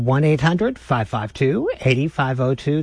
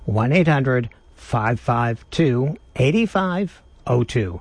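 First: The number is said at a faster pace. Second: The number is said at a slower pace.

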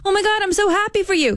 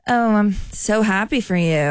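First: It sounds genuinely happy and sincere. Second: It sounds fake and insincere.

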